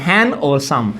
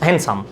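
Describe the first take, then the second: First: हैंड और सम, the word हैंडसम broken into two parts, d left out; split into syllables. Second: Said in the usual way. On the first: Shown as a demonstration. Teacher to class, splitting हैंडसम into syllables. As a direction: say हैंड, then सम, as separate beats. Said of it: "डी silent है". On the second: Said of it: "ये two syllable word है".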